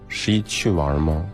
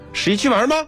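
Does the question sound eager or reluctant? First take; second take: reluctant; eager. First: It sounds like a reluctant, unwilling question. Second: It sounds like an eager, interested question. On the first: The asker does not really want to go. "你不想去啊？" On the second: The asker wants to go out during the holiday. "如果两个语气表达"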